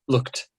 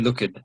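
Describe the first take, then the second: First: The ending is a plain t, one syllable. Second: The ending adds an extra syllable, look-ed. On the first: The speaker calls it right. "normally you don't. Like you just say looked" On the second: The speaker calls it wrong. "makes an extra syllable out of the ed"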